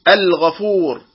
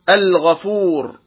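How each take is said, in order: The two takes are said the same way.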